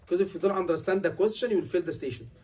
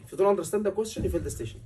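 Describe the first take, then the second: First: Said in the usual way. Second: Fast, pressing warning, dropping at the end; emphatic repeat. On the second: Shown as a demonstration. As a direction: drive the warning home quickly. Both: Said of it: "I am emphasizing on the words".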